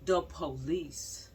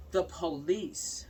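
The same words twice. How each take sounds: The two takes are said the same way.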